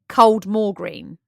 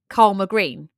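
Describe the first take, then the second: First: The first word sounds like cold more, with an L. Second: The first word sounds like karma, without an L. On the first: The speaker is an outsider. "outsider would call it Coldmore Green" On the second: The speaker is a local. "a local person would call it Karma Green"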